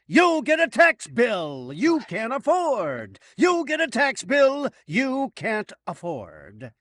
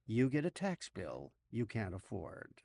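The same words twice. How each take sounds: First: Loud, high, drawn-out mock giveaway shout; Oprah-style yell. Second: Softer, lower, let-down repeat; deflated aside. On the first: Host parodies the car giveaway with bad news, yelling. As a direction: bellow it like a prize announcement. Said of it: "she forgot to yell". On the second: Acted. Host undercuts the tax bill shout, quiet and deflated. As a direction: drop the hype and say it quietly.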